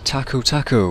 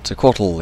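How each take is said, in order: First: The name is said jokingly, like two tacos. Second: The name is said in its normal pronunciation.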